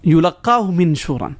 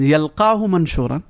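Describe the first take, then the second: First: يُلَقَّاهُ مِنْشُورًا with yu and a doubled qaf, fast recitation; the yulaqqahu reading, recited quickly; second Quranic reading. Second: يَلْقَاهُ مَنْشُورًا with open ya and ma, fast recitation; the yalqahu reading, recited quickly; first Quranic reading. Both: Shown as a demonstration. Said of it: "if you look at the pronunciation, you see the difference".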